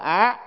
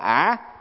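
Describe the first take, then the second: First: The syllable is said with a high rising tone. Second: The syllable is said with a dipping tone. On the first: "mà cũng phải là á" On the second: "không phải là ả"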